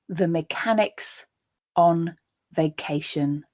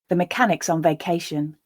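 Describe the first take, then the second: First: The sentence is spoken slowly and deliberately. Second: The sentence is spoken at a natural speed. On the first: "I'll read the sentence once, slowly" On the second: "a second time at a more natural pace"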